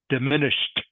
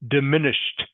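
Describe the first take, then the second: First: The ending is a clear t sound. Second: The same.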